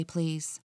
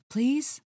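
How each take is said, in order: First: Said in the usual way. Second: "Please?" jumps high into a thin squeaky rising plea; squeaked. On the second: Acted. Flustered Kat begging the officer to let her pass, "Please?" squeaked high. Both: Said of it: "my voice squeaked".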